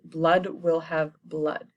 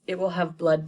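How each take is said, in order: First: Slow, foreboding delivery; ominous line. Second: Said in the usual way. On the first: Retold or imitated. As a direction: let each word of Blood will have blood land slowly. Ominous restated Macbeth line.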